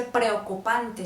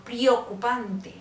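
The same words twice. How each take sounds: First: Said in the usual way. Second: "preocupante" with pri- for pre-; Tolima-style "preocupante", slow, E turned into I; opita I for E. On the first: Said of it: "O no dice preocupante". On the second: Shown as a demonstration. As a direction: say preocupante as prio-cupante, slowly. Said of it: "mucho por incluir la I".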